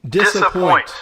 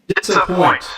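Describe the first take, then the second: The two takes are said the same way.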